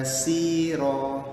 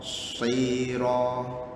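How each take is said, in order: First: It begins with a light plain s sound. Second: It begins with a heavy emphatic s sound. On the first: The speaker calls it wrong. "dia tak boleh ala sira si, itu namanya huruf sin" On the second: The speaker calls it right. "Shad ni ingat bibir atas tetap jongkit ke atas"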